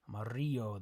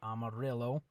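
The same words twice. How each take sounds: First: The double l is said like a y. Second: The double l is said like an l. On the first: The speaker calls it right. "the double L makes like a Y sound" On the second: The speaker calls it wrong. "it's not"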